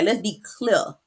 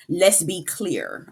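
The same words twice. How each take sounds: First: Light rapper impression, "clear" said like "clea"; hint of a Southern rapper's accent. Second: Said in the usual way. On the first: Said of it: "T I voice".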